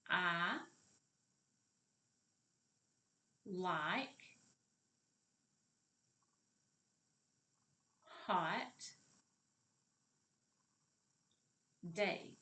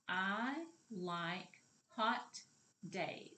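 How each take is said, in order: First: It is said more slowly. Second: It is said at a normal speed.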